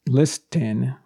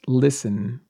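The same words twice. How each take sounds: First: The T sound is pronounced in the middle. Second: The T sound is silent in the middle. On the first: The speaker calls it wrong. "might think this is pronounced listen, because it's L-I-S, list. T-E-N is like the number 10" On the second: The speaker calls it right. "it's actually pronounced listen. So the T here is silent"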